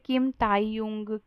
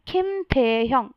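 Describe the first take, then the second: First: The middle syllable is said 'tai'. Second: The middle syllable is said 'the'. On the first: The speaker calls it wrong. "बहुत सारे लोग बोलते हैं ... जो कि बहुत गलत है" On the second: The speaker calls it right. "तो आपको बोलना है"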